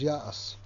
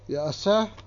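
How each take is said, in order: First: The word ends without the extra 'eh' syllable. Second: The word ends with an extra 'eh' syllable. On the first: This is the form used when reading aloud. "the way you read it is Yaas" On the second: This is the written form of the word. "It's spelled Yaaseh"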